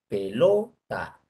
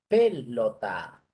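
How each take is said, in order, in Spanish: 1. La sílaba tónica es la del medio. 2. La sílaba tónica es la primera. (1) "En la penúltima" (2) "En la antepenúltima"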